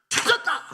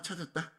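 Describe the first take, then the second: First: It is said with strong, excited feeling. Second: It is said flatly, without feeling. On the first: Something very important was found after a desperate search. The speaker calls it right. "감정을 실어야 된다는 거예요" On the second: Finding it is no big deal. The speaker calls it wrong. "그냥 아 찾았다 뭐 이게 아니란 거예요"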